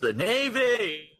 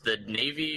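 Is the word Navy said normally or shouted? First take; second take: shouted; normally. First: The word Navy is shouted loudly. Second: The word Navy is said at normal loudness. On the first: The speaker calls it right. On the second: The speaker calls it wrong.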